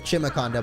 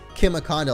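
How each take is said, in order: First: The first syllable does not sound like chimera. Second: The first syllable sounds like chimera. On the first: This is the speaker's own preferred way. The speaker calls it wrong. "I like the sound of Chimiconda" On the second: This is the supposedly official way. The speaker calls it right. "it's supposed to be like Chimiconda, like a chimera"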